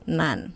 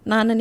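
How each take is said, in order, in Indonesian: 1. Kedua suku kata menyatu jadi satu. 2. Kedua suku kata diucapkan utuh. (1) "itu nanti jadi 난" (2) "나는 yang artinya aku itu nanti jadi 난"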